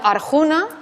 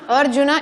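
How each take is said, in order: First: The stress is not on the third-last syllable. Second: The stress is on the third-last syllable. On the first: The speaker calls it wrong. "y no Arjuna" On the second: The speaker calls it right. "es Arjuna, Arjuna"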